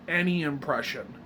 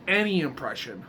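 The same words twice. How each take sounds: The two takes are said the same way.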